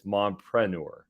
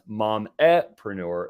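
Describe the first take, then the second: First: It is said with no vowel after 'mom'. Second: It is said with an extra vowel after 'mom'. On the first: The speaker calls it right. "It's mompreneur" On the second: The speaker calls it wrong.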